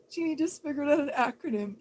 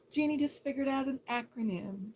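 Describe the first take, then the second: First: Jeannie just figured out an acronym shouted fast and loud, voice cracking; loud, rushed, overexcited announcement; excited shout. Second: Said in the usual way. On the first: Shown as a demonstration. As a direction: yell it out fast in mock excitement. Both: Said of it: "Let's all get excited".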